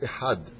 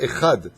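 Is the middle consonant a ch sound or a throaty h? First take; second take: throaty h; ch sound. First: The middle consonant is a throaty h. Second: The middle consonant sounds like a ch. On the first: The speaker calls it right. "c'est Echad" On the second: The speaker calls it wrong. "C'est pas Echad"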